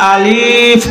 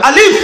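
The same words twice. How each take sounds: First: The vowel is drawn out long. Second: The vowel is kept short, without stretching. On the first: The speaker calls it wrong. "আলিফ বললে হবে না" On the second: The speaker calls it right. "নুরানি পদ্ধতি বলতে হবে আলিফ। ... টানটুন নাই।"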